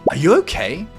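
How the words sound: The question sounds angry and harsh. "This is an angry tone of voice"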